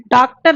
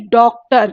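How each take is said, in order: First: डॉक्टर said with a plain long a, "daaktar"; wrong pronunciation. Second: डॉक्टर with the open English "aw" vowel, "dawktar"; correct pronunciation. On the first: Teacher showing students how not to say डॉक्टर, as "daaktar". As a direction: demonstrate the mistake, saying डॉक्टर as "daaktar". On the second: Teacher giving students the correct डॉक्टर with the English "aw" vowel. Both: Shown as a demonstration. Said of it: "इसका उच्चारण डॉक्टर नहीं".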